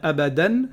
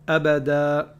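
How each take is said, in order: First: The word ends with an n sound. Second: The word ends on a long open vowel. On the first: The speaker calls it wrong. "On va pas dire abadan" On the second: The speaker calls it right. "si je m'arrête, je dis abada"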